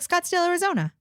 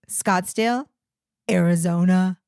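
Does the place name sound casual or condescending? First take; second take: casual; condescending. First: It sounds casual, run together as one phrase. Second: It sounds condescending, with Arizona set apart. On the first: The state is just part of the name. The speaker calls it right. "if it's sort of like one thought" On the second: The listener is assumed not to know the place. The speaker calls it wrong. "unless you're saying it like"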